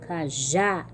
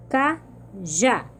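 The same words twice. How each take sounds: First: Cajá with the stress on final JÁ; lower-pitched cajá, leaning on JÁ; última sílaba forte. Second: Cajá split into two syllables, CA, pause, JÁ; sílabas separadas. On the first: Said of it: "têm a última sílaba forte". (cajá, com o JÁ forte) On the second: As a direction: break Cajá apart, syllable by syllable. (Cajá separado em CA... JÁ) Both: Shown as a demonstration.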